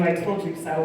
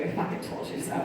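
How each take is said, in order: First: Said in the usual way. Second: Hushed, breathy I fucking told you so; sneaky whispered gloat; whispered aside. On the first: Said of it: "to tell you". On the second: Shown as a demonstration. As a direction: mutter fucking under the breath. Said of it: "without having to tell you".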